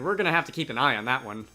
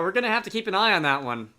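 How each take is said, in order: First: The line is mumbled under the breath. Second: The line is spoken clearly in a normal voice. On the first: The speaker calls it right. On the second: The speaker calls it wrong.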